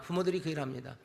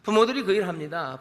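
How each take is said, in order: First: 부모들이 그 일 합니다 repeated much softer; soft, sober repetition; quiet echo. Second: Said in the usual way. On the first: Acted. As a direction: drop the voice on the repeat, 부모들이 said softly.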